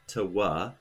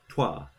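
First: The lip rounding comes after the consonant, separately. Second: The lip rounding happens together with the consonant. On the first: The speaker calls it wrong. "it's not tawa" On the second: The speaker calls it right. "it's twa"

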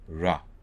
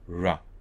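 First: The r is an open, smooth approximant. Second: The same.

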